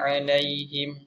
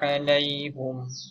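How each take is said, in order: First: The vowel after the h is i. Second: The vowel after the h is u. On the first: "haknya berbaris bawah" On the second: "baca alaihum baris depan"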